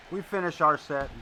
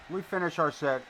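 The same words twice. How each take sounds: The two takes are said the same way.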